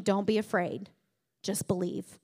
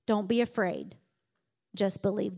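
First: Softer, tender reassurance; calm the frightened listener gently; Jesus to the frightened listener, softer and tender. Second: Reassuring. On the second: Jesus reassures Jairus. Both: Retold or imitated.

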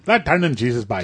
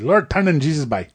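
First: Put-on a lighter Newfoundland accent, closer to his own voice; Newfie accent again. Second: Put-on a thick Newfoundland accent, words run together; Newfie accent. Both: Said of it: "the only thing I can say in Newfie is".

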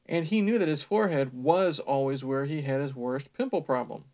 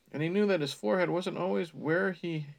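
First: "was" leaned on to correct a misreading; stress on WAS. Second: Said in the usual way. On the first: Real, not acted. Reader fixes own misreading, stressing "was". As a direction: hit "was" firmly, then carry on reading.

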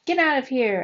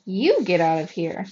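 First: Raised, higher-pitched jeer; heckler's shout. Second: Loud retort leaning hard on "You"; angry yell back. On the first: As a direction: shout it like a hostile spectator. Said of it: "another heckler shouted". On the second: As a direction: throw it back at the heckler, punching "You". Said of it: "He whirled around and yelled". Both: A narrator's reading.

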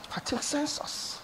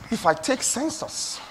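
First: Whispered repeat. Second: Said in the usual way. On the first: Shown as a demonstration. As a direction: drop it to a breath. Preacher repeats phrase, second hushed.

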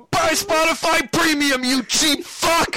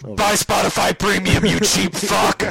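First: High, loud, slow megaphone shout; through a megaphone. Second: Loud, slow shouted ad read. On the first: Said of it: "He puts on the megaphone". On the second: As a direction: bellow it like a pitchman. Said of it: "that was a Gus Johnson thing". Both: Retold or imitated.

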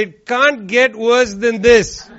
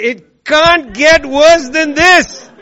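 First: Slow, mock-weary sigh of a line; a hint of tired disbelief; mock resigned. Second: Higher, louder and slow, hammed-up lament; exaggerated mock exasperation; mock despair. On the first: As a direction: say it like you've given up. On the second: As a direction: wail it like the worst has come. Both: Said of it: "and then you say".

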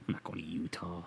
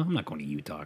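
First: Softer whispered repeat; breathy whispered refusal. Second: Said in the usual way. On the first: Shown as a demonstration. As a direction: whisper it to yourself.

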